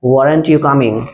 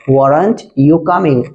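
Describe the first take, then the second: First: Said in the usual way. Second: Weren't you coming drawn out slowly word by word; teacher repeating "weren't you coming" at half speed; slow clear repeat. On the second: Shown as a demonstration. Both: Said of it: "said twice, normal then slow".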